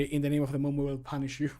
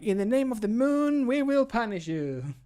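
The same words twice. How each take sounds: First: Said in the usual way. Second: High, loud, sweeping heroic declaration; theatrical hero parody. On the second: Retold or imitated. Voice actor mocking an earlier take as overdramatic, theatrical hero parody. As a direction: proclaim it grandly, stretching out the end. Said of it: "the first one was very like".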